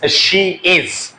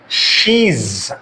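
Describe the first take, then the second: First: The two words are said separately and fully. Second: The two words are joined into one syllable. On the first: "it's she is" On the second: "they use the contraction while speaking. Like she's"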